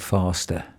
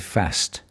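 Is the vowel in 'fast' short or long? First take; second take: long; short. First: The vowel is long and open, southern style. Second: The vowel is short and flat, northern style. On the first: The speaker calls it wrong. "He was saying" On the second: The speaker calls it right. "We say fast"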